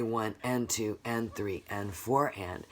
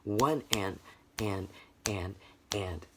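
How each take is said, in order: First: Every number and "and" voiced in steady rhythm; full offbeat count. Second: "one and", then soft "and" with silent downbeats; syncopated count. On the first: Teacher counting the second half of beats, even chant. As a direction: chant "one and two and three and four and" evenly. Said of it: "So we'd say". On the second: Teacher showing sound only on upbeats, gapped rhythmic count. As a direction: leave a gap before each later "and". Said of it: "this is gonna sound like". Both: Shown as a demonstration.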